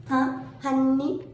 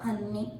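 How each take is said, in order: First: Huh, honey? pitched high and drawn out slowly; mocking honey. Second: Said in the usual way. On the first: Taunting the critic, a high, stretched honey?. A sarcastic tag aimed at the critic.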